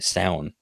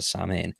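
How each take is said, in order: First: The name sounds like 'sow-in'. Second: The name sounds like 'sam-hain'. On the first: This is the native Irish pronunciation. The speaker calls it right. "That's how I'd pronounce it. That's the proper way" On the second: This is how most people say it. The speaker calls it wrong. "everyone calls it Samhain"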